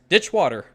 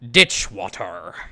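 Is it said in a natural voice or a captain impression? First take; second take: natural voice; captain impression. First: It is said in the speaker's natural voice. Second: It is said imitating the captain's voice.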